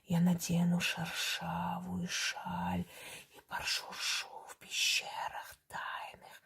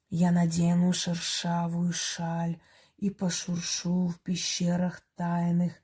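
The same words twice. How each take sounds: First: It is whispered with a hissing sound. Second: It is spoken aloud in a full voice. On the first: It is on the wave that spirits hear. "Теперь я прочитаю как надо" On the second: The words can be made out clearly. "это я громко говорю, чтобы вы разобрали слова"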